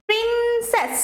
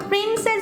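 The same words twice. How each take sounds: First: princess with a high, drawn-out প্রিন, falling on সেস; stress on first syllable. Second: Said in the usual way. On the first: Shown as a demonstration. Teacher showing students the stressed syllable, princess leaning on প্রিন. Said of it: "প্রিনে আমার জোরটা বেশি পড়ছে". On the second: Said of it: "princess যদি আমরা লিখি".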